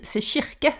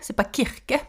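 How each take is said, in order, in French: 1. Le mot commence par un son sh doux. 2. Le mot commence par un k dur.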